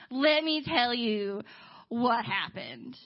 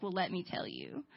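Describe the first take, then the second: First: Very slow, drawn-out delivery; slow, weighty repeat. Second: Low, soft reply; understated lead-in. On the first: Ray launching his story to Gabe, slowly and weightily. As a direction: stretch each word of "Let me tell you what happened". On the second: Ray answering Gabe, acted low and softly. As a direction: begin low and quiet. Ray's first take, low. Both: Retold or imitated.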